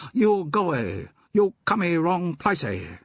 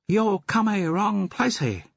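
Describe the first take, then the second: First: High put-on pidgin English, adding "y" to words; mock pidgin accent. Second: High put-on pidgin English, adding "y" to words; a cheeky opium-den keeper laying on a fake pidgin accent; mock pidgin accent. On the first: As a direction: keeper shooing the visitors away in fake pidgin. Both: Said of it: "Do you have to talk like that?".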